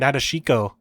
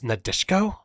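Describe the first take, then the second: First: The vowel after 'desh' is clearly pronounced. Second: The vowel after 'desh' is dropped. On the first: The speaker calls it wrong. "I've been calling her Nadeshiko" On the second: The speaker calls it right. "It's Nadeshko"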